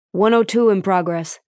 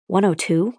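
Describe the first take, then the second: First: Said in the usual way. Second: "One oh two?" repeated with a rising questioning tune on "two"; puzzled echo. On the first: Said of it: "sweat dripping from his brow". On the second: Acted. Doctor repeating the unfamiliar code, puzzled and rising. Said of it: "She couldn't remember what that was".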